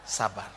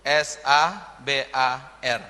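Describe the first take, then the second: First: Said in the usual way. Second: S A B A R spelled letter by letter, slow and low; letters of SABAR spelled out slowly. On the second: Shown as a demonstration. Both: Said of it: "lima huruf".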